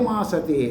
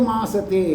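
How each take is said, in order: No difference in how they are said.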